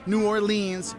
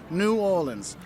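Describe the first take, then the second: First: The syllable 'or' does not carry the stress. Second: The syllable 'or' carries the main stress. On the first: The speaker calls it wrong. "You don't call it" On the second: The speaker calls it right. "put the emphasis on that or"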